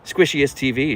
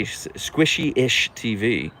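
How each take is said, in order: First: Said in the usual way. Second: Slow careful reread. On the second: Shown as a demonstration.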